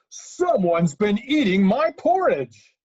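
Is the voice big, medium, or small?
big. It is said in a great, huge voice.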